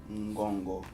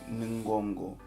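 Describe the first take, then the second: The two takes are said the same way.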